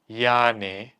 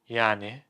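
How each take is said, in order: First: It sounds like stating the obvious. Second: It sounds challenging and dismissive. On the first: The answer is obvious. "can mean da" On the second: What is the point of that? "It can mean so what? What's your point?"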